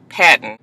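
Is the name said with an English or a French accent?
English. The name is said with an English accent.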